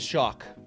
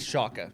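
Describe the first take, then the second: First: The name ends on a consonant sound. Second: The name ends on a vowel sound. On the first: The speaker calls it wrong. "I said shock over and over again" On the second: The speaker calls it right. "it is Shaka"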